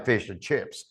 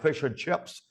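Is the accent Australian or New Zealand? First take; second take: Australian; New Zealand. First: It is said in an Australian accent. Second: It is said in a New Zealand accent.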